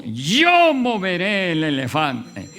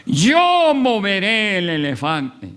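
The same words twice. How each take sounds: First: Grito fanfarrón. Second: Repite la jactancia más fuerte; grito fanfarrón más fuerte. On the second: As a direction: Yo lanzado con más fuerza y más alto. (grito jactancioso, más fuerte que la primera vez) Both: Retold or imitated. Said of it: "alguien gritó".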